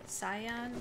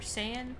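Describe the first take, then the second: First: It is pronounced in a Japanese-style way. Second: It is pronounced in an English-style way. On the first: This is the original way the word is said. "pronounce it the Japanese way" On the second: This is the common way most people say it. "everybody says Super Saiyan"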